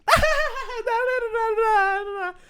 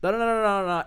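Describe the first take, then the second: First: Very high, drawn-out mock babble; drunk wife butting in. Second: Lightly voiced daughter rattling off nonsense syllables; stand-in chatter, only a little raised in pitch; daughter talking. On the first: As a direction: babble over everyone like a hammed-up drunk. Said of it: "And then the wife goes". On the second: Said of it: "So she says".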